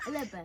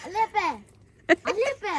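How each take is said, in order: First: Said in the usual way. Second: Louder, higher call to dad. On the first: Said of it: "repeated louder". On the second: Real, not acted. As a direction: call out to get his attention. Calling out to dad repeatedly.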